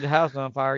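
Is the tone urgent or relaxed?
relaxed. It is said casually, in a relaxed voice.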